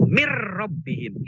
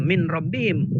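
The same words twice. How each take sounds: First: "mir rabbihim" slow, n merged into a doubled r; idgham, nun merged. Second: "min rabbihim" with the n said clearly; wrong reading, nun kept. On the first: Teacher demonstrating the merged reading slowly. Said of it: "nunnya jadi masuk ke ro". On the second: Teacher showing the wrong way, n clearly said. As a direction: keep the n in "min" audible, as a mistake. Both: Shown as a demonstration.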